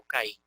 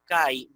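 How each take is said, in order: First: CAÍ split in two, ca-í; CAÍ with a hiatus, ca-Í; version to avoid. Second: CAÍ as one syllable, cai; CAÍ said like the Greek kai; pronounced as diphthong. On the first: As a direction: stress the final í in CAÍ. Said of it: "no caí". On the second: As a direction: glide from a to i in CAÍ, stress on the a. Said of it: "usted va a decir". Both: Shown as a demonstration.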